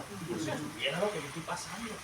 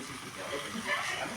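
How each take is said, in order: First: Softer, swinging, self-pitying aside; exaggerated private complaint in a softened voice; mock inner retort. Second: Low, hushed private aside; very soft, low unspoken retort; inner thought. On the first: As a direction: act out grumbling inwardly, rising at the end. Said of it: "Dentro de, porque uno es así". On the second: Retold or imitated. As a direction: mutter it to yourself under the breath. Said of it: "Yo dije dentro de mí".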